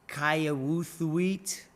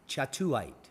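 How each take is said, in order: First: The word begins with a k sound. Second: The word begins with a ch sound. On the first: The speaker calls it wrong. "you'd probably say" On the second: The speaker calls it right. "is in fact pronounced"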